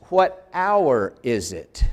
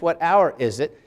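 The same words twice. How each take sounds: First: "What hour is it?" said very slowly, each word set apart; slow literal gloss. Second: Said in the usual way. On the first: Shown as a demonstration. Teacher slowing down to show a student the literal meaning. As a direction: spell out the literal wording word by word. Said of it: "Literally, that means".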